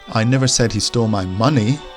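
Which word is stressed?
money. The stress falls on the word money. Something else of mine was stolen. "he stole something of mine, but not money"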